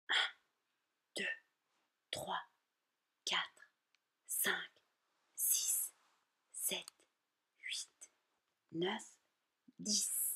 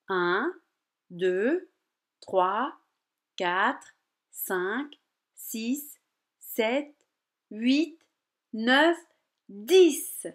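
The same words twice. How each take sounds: First: The numbers are counted softly and quietly. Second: The numbers are counted louder and stronger. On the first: "il faut compter doucement jusqu'à 10" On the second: "il faut compter plus fort"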